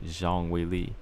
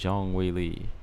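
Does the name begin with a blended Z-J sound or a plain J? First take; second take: blended; plain J. First: The name starts with a blended Z and J sound. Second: The name starts with a plain English J sound. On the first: This is closer to the Chinese way of saying it. The speaker calls it right. "a combination of both... the Z, and the J" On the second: This is an Americanized way of saying it. The speaker calls it wrong. "Stamina said that's Americanized"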